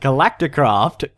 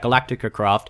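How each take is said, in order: First: Galactic runs straight into craft. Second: An extra syllable comes before craft. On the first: The speaker calls it right. "correct myself" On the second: The speaker calls it wrong. "I said it wrong again"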